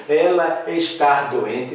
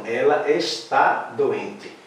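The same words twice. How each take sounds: First: "está" said as "estar", slow questioning tone; wrong infinitive form. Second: Slow, settled statement, "está" ending on a stressed "tá"; correct accented form. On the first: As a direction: slowly try "está" with an R ending, as a doubtful question. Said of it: "Não". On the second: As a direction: answer firmly with open final vowel in "está", falling close. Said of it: "com acento". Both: Shown as a demonstration.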